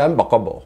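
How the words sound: Words are run together in an affected, showy accent. The listener cannot understand what is meant. "নিজস্ব একটা খুবই stylish accent আছে"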